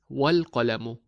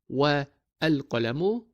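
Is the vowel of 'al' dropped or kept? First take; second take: Dropped; Kept. First: The 'a' of 'al' is dropped, words linked. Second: The 'a' of 'al' is kept, words separate. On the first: The speaker calls it right. "we read it as wal-qalamu" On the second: The speaker calls it wrong. "not wa al-qalamu"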